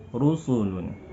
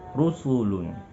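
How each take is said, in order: The two takes are said the same way.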